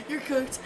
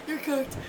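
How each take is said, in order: Both takes have the same delivery.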